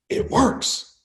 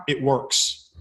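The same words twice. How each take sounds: First: Breathy whisper, no voice. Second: Said in the usual way. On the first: Shown as a demonstration. Speaker to audience, repeating the punchline in a whisper. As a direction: let the words fall to a hushed whisper.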